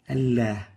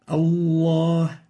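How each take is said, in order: First: The L is said light and thin. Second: The L is said heavy and thick. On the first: The speaker calls it wrong. "not Allah" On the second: The speaker calls it right. "the right way of pronouncing this"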